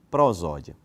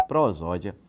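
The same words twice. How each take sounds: The two takes are said the same way.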